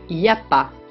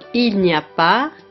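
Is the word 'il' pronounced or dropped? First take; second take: dropped; pronounced. First: The word il is dropped completely. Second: The word il is pronounced in full. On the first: This is casual spoken speech. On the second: This is standard speech.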